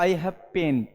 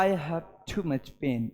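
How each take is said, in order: First: Said in the usual way. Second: Low, soft, slow voice of someone hurting; pained. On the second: Shown as a demonstration. Teacher showing students a pained way of saying pain. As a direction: groan it out slowly as if in real pain. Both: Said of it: "कहने का तरीके से आपको पता चल जाता".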